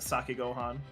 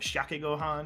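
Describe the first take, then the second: First: The first word begins with an 's' sound. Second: The first word begins with an 'sh' sound. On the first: "without the H sound, but I have been informed it's Sake Gohan" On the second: "if I were to be pronouncing it, it'd be like Shake Gohan"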